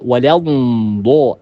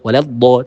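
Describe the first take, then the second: First: The dhad sound is drawn out and lengthened. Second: The dhad sound is short, not drawn out. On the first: The speaker calls it right. "ada suara yang dipanjangkan" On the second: The speaker calls it wrong. "Jadi bukan waladdo"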